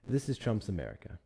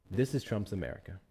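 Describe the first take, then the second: No difference in how they are said.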